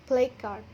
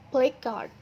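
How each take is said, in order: The two takes are said the same way.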